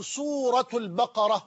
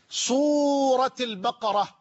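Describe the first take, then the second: First: سورة البقرة as "suratu l-baqara"; nominative case ending. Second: سورة البقرة as "surati l-baqara", drawn out; genitive case ending. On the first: Teacher offers alternative valid reading of سورة البقرة, nominative "suratu". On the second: Teacher offers first valid reading of سورة البقرة, genitive "surati". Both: Shown as a demonstration. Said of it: "وكلاهما صحيح".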